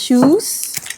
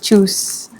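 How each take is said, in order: First: The word begins with a soft 'sh' sound. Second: The word begins with a sharp 'ch' sound.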